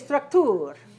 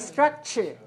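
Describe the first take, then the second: First: The ending is said with a plain T sound. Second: The ending is said with a CH sound. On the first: The speaker calls it wrong. "we don't say structure" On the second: The speaker calls it right. "We say structure"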